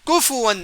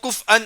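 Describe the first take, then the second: First: The f is followed by a u vowel. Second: The f has no vowel after it. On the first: The speaker calls it right. "फा को पेश लगाना चाहिए" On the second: The speaker calls it wrong. "फा को ये देना, जजम देना है"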